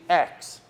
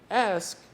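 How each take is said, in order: First: The k sound comes before the s. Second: The s sound comes before the k. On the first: "they say X" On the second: "instead of saying ask"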